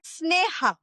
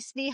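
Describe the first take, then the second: First: The name has its native Indian pronunciation. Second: The name has an anglicized Canadian pronunciation. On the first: "That is the right pronunciation" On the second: "people would say Sneha"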